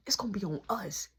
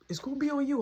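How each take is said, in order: First: Soft retort that leans on "us"; hushed comeback, lower, with weight on "us"; stress on "us". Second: Imitated brother, softer, putting the blame on "you"; hushed warning ending on "you"; stress on "you". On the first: Retold or imitated. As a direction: correct him by hitting "us". Narrator corrects brother's you to us. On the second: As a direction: land the sentence on "you". Brother shifts blame, answered in contrast.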